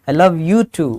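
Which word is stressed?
you. The word you carries the strongest stress. The speaker loves this person as well as others. "मैं तुमसे भी प्यार करता हूँ"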